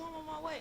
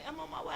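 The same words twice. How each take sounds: First: Much higher, eager and quick to help; eager cousin. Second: Higher, shouted out eagerly; shouted repeat. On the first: Cousin promising a pickup, high and eager. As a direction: play the cousin happily promising a ride. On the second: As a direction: yell it back like the cousin hurrying. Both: Retold or imitated. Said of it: "He's like".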